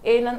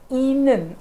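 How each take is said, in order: First: The first vowel sounds like 'eh'. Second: The first vowel sounds like 'ee'. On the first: The speaker calls it wrong. "असं केलं तर ते होणार नाही" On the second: The speaker calls it right. "तर ते इनन असं"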